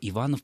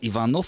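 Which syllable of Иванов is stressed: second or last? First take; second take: second; last. First: The stress is on the second syllable. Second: The stress is on the last syllable. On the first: It is the surname of a noble family. "произносилась с ударением на... Да, второй слог" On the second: It is the surname of a commoner. "это уже считалась фамилия, скорее, простолюдина"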